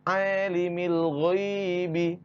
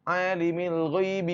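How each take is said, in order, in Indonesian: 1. Frasa itu diucapkan dengan lambat dan terukur. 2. Frasa itu diucapkan dengan cepat dan terburu-buru. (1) "Yang benar adalah" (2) "Itu terlalu cepat"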